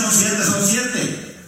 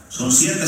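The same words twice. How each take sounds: First: "Son siete, son siete" said very slowly and firmly, leaning on "siete"; slow firm insistence. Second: Said in the usual way. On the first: Retold or imitated. Preacher voicing God's final answer to the haggler, slow and firm. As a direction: draw out each "siete" like a final word. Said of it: "Y si Dios dice".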